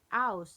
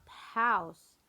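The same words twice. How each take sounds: First: The word is said without the h sound. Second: The word is said with the h sound. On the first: "they are not often to say h sound. They are saying house" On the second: "not house"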